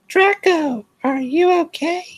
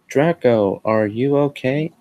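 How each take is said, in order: First: It is said in a put-on gothic voice. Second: It is said in a plain, normal voice.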